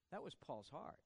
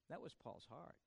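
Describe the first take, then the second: No difference in how they are said.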